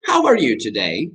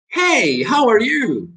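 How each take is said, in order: First: "How are you today" as a rising question; demonstrated question tune; different intonation. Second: "Hey, how are you" pitched high, falling at the end; high, bright-tuned greeting demo; different intonation. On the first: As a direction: keep it at normal pitch, lift at the end. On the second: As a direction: start way up, drop on "you". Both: Shown as a demonstration. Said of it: "hay diferentes entonaciones".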